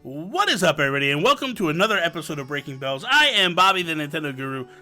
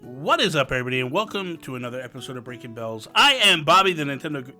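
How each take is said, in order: First: It is said with high, lively energy. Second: It is said with low, subdued energy.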